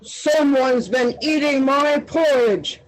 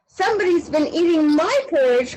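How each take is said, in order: First: It is growled in Daddy Bear's voice. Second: It is cried in Baby Bear's voice.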